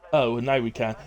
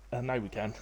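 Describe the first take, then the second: First: Mock let-down reading, opened with an "oh"; slightly disappointed. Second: Said in the usual way. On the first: Streamer voicing a viewer's chat message back to them, slightly disappointed. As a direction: read it back as mildly disappointed. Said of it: "sounds like you were slightly disappointed".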